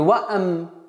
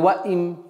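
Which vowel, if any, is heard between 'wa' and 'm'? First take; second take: a; i. First: An extra 'a' vowel is inserted before the m. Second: An extra 'i' vowel is inserted before the m. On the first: "Не ваам" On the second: "или ваим"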